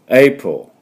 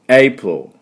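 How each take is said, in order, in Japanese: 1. 英語風に、2つの音節で発音されます。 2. 英語風に、2つの音節で発音されます。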